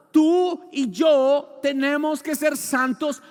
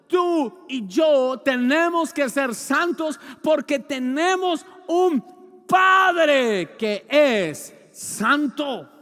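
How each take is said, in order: First: Preaching. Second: Slow, loud, shouting peak on "yo"; shouted climax. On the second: Preacher shouting "santos" and "Padre" at the congregation. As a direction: shout "Tú y yo" slowly at full force. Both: Acted. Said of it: "repeated with a shout".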